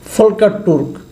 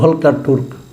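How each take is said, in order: First: The name begins with an F sound. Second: The name begins with a V sound.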